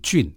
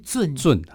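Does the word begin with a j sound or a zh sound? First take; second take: j sound; zh sound. First: The word is said like jùn. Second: The word is said like zhèn. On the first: The speaker calls it wrong. "这个我们有时候会把它念成" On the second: The speaker calls it right. "但是正确的发音是圳"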